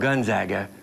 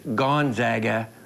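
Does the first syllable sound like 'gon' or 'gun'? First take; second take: gun; gon. First: The first syllable sounds like 'gun'. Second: The first syllable sounds like 'gon'.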